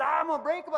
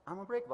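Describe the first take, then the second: First: "unbreakable" yelled much higher and louder; yelled affirmation. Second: Said in the usual way. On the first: Retold or imitated. Photographer on the ice yells his affirmation loudly at the skier's urging. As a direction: shout "I'm unbreakable" as loud as you can. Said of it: "I want you to yell it". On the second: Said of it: "He says".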